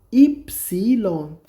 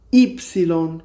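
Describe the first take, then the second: First: epsilon very slowly, as "ip-siii-lon"; syllable-by-syllable demonstration. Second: Said in the usual way. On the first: Shown as a demonstration. Teacher repeats name of letter Y, slow syllable-by-syllable demonstration. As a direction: break epsilon into stretched syllables.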